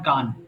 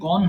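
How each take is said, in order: First: The vowel is an open 'a' sound. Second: The vowel is a rounded 'o' sound. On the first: The speaker calls it wrong. "এটা অনেকে গান বলে ফেলে, but it's wrong" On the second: The speaker calls it right. "It should be only গন"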